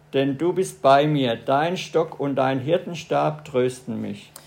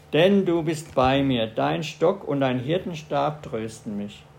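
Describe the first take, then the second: No difference in how they are said.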